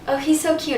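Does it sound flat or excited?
flat. It sounds flat and subtle, with little emotion.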